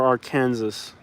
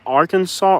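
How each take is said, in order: First: "Arkansas" said ar-KAN-zus; spelling pronunciation. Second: "Arkansas" said AR-kan-saw; usual pronunciation. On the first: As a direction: say "Arkansas" like "Kansas" with "Ar" before it. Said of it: "How do you say it?". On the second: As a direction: end "Arkansas" in "saw", silent final s. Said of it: "I've always said Arkansas". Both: Shown as a demonstration.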